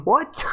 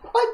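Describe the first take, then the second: First: Sharp high rising what, real surprise; surprised what. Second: Said in the usual way. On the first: Real, not acted. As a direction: toss it up in disbelief. Reacting to a viewer's age claim.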